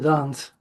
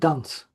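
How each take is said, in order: First: The vowel in dance is lengthened. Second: The vowel in dance is short. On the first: The speaker calls it wrong. "not to dance" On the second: The speaker calls it right. "you're supposed to dance"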